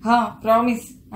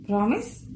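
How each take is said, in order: First: promise as an answer, no questioning lift; affirming. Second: promise with a rising question tune; asking. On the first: Wife answers husband, promise stated in agreement. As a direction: stress హా, then state promise. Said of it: "అంటూ నెత్తి మీద ఠపీమని". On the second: Husband asks wife, promise rising as a question. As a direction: lift the end of promise to ask. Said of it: "చెయ్యి చాపుతూ అడిగాడు". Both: A narrator's reading.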